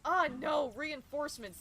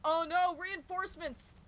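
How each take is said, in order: First: The line is said in an annoyed voice. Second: The line is said in a panicked voice. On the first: "just sounding a little bit annoyed even" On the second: "it's probably sounding a little bit more panicked"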